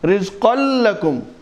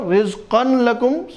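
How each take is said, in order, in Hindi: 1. 'n' की ध्वनि अगले 'l' में मिल जाती है। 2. 'n' की ध्वनि 'l' से पहले साफ़ उच्चारित होती है। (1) "ठीक है" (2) "सही नहीं है"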